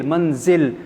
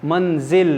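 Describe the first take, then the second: The two takes are said the same way.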